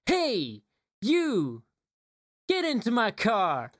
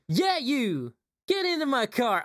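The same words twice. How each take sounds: First: Higher sung pop line; singing. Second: Higher sung pop line; high singing. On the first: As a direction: sing the car song. Sings the eighties song. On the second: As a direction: sing the chorus up high. Sings the chorus again. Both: Retold or imitated.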